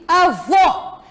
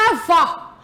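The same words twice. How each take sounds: First: "avô" with a closed final O; closed vowel. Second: "avó" with an open final O; open vowel. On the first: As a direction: say "avô" ending in a rounded, closed "ô". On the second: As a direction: say "avó" ending in a wide, open "ó". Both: Shown as a demonstration. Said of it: "não avó".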